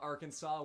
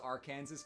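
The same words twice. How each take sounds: First: The ending sounds like 'saw'. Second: The ending sounds like 'Kansas'. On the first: The speaker calls it right. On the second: The speaker calls it wrong.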